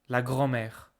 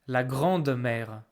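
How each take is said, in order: First: No d sound is pronounced before mère. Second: A d sound is pronounced before mère. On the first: The speaker calls it right. "we say grand-mère. And it sounds better" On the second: The speaker calls it wrong. "So we don't say grande-mère"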